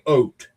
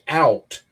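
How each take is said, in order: First: It is said with a Canadian vowel. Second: It is said with an American vowel.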